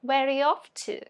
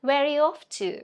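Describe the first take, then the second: No difference in how they are said.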